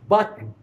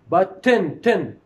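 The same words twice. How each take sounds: First: The final n forms the syllable with no vowel. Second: A clear vowel is heard before the final n. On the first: "the consonant here which occupied the place of this vowel" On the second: "There is a vowel here. I pronounced the vowel. I said button"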